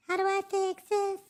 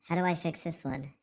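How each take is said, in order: First: Very high-pitched cartoonish squeak; silly squeaky voice. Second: Said in the usual way. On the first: Streamer repeats his own question to himself, silly squeaky voice.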